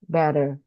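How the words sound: The middle T is a soft, quick flap. "In American English, the two two T's that is a sound re- air"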